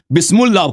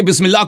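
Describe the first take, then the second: First: بسم اللہ with "u" after the m, "bismullah"; mispronounced بسم اللہ. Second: Said in the usual way. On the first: Shown as a demonstration. Debater showing his opponent a misreading, بسم اللہ mispronounced as "bismullah". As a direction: say بسم اللہ wrongly as "bis-MUL-lah". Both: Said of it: "آپ نے غلط پڑھی بسم اللہ".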